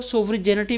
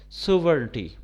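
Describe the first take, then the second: First: सोवरिजेनिटी with a spoken g, so-va-ri-je-ni-ti; less common pronunciation. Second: सोवरेनिटी with a silent g, sov-ren-ti; common English pronunciation. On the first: Teacher shows students the less common सोवरिजेनिटी. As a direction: sound the g in सोवरिजेनिटी. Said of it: "कुछ लोग सोवरिजेनिटी भी कहते हैं". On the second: Teacher gives students the usual सोवरेनिटी. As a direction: drop the g in सोवरेनिटी. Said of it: "आम तलफ़्फ़ुज़ इसका है अंग्रेज़ी में". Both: Shown as a demonstration.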